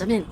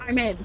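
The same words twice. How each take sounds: First: It is said in a put-on hacker voice. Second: It is said in his normal voice.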